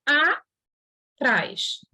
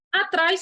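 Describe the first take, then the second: First: "a, trás" said as two separate beats with a pause; split into syllables. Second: Said in the usual way. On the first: Shown as a demonstration. Teacher splitting atrás into syllables for the class, slow, separated beats. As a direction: break "atrás" apart, a then trás. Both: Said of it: "Atrás se separa".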